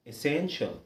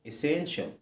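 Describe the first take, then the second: The two takes are said the same way.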